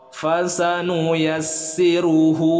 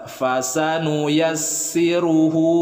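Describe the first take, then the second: Both takes have the same delivery.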